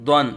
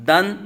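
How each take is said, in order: First: دن with a thick, rounded d, like "dwan"; full, heavy Dwan. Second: دن with a thin, light d and open a; light plain Dan. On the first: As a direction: fill the mouth on دن, darkening the a. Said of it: "واضح فرق کرنا ہے". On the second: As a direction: say دن lightly, unrounded. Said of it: "یہ دن پڑا تھا". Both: Shown as a demonstration.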